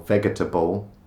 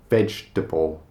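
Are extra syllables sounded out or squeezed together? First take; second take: sounded out; squeezed. First: It is said with extra syllables sounded out. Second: It is said with syllables squeezed together. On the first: The speaker calls it wrong. "or vegetable" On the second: The speaker calls it right. "It's just vegetable"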